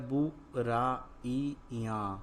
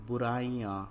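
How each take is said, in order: First: बुराइयां split into slow separate syllables; बुराइयां drawn out, every syllable held apart. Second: Said in the usual way. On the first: Shown as a demonstration. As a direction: sound out बुराइयां piece by piece. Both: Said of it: "तो क्या शब्द बना".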